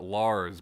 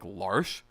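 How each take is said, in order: First: The name ends with a plain s sound. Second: The name ends with an sh sound. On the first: This is the common pronunciation used in the game. "Everybody pronounces it Lars" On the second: This is how the name is said where the character is from. "where that character is from, that spelling of that name would be pronounced like Larsh"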